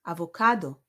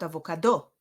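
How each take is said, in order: First: "Avocado" with the CA stressed; a-vo-CA-do, punch CA then drop; stress on third syllable. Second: "avocado" wrongly stressed on DO; a-vo-ca-DO, punch the final syllable; stress on last syllable. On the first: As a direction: say "Avocado" with weight on its next-to-last syllable. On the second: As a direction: say "avocado" with weight at the very end. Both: Shown as a demonstration. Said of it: "not avocado".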